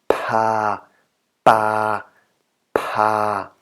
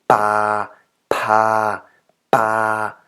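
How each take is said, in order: Both takes have the same delivery.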